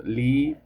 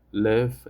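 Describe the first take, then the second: First: Long-vowel "leave", tone going up. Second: Live with a short, lax i; short-vowel "live", as in give. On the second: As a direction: say "live" with a brief relaxed vowel. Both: Shown as a demonstration. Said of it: "have completely different meanings".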